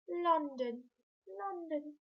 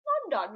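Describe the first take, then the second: First: Mock posh "London, London"; lightly plummy, upper-class London. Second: Said in the usual way. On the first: Shown as a demonstration. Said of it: "put a really posh voice on". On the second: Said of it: "remember we have to put a really posh voice on".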